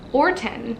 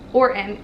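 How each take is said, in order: First: The middle T sound is dropped or softened. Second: The middle T sound is dropped or softened.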